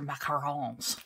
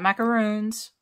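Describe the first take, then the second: First: Macarons said in a mock French way, light stress on the last syllable "rons"; a hammed-up French macarons, final syllable nasal and stressed; bad French accent. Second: Macaroons said the English way, stressed roo; English macaroons, long oo, stress on roo; plain English. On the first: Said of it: "I say them with my really bad French accent". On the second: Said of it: "Macaroons are coconut". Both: Shown as a demonstration.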